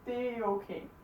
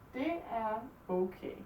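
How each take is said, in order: First: Det and er merge into one lengthened sound. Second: Det and er are said as separate words.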